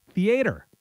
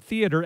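First: "theater" as thee-AY-ter; alternative theater pronunciation. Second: Said in the usual way. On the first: Retold or imitated. Host quotes a friend's pronunciation, "theater" as thee-AY-ter. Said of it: "used to say the word theater as theater". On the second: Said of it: "used to say the word".

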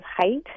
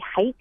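First: Said in the usual way. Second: HEIGHT as "heighth", TH on the end; added-H pronunciation. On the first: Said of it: "instead of height". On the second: Retold or imitated. Word expert quotes some people, HEIGHT ending in TH. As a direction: finish HEIGHT on a TH sound. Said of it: "they add an H on the end".

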